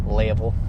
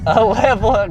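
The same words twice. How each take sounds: First: Level said as leivel, with a long ay sound; level spoken with an accent twist; accent slip. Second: Said in the usual way. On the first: Shown as a demonstration. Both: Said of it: "got a little accent there".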